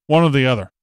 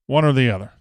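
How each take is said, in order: Both takes have the same delivery.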